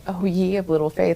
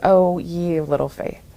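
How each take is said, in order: First: It is said in a warm, joyful tone. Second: It is said in a heavy, shaming tone. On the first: The listener is being gently encouraged. "eyes dancing with joy" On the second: The listener is being scolded. "with so much shame"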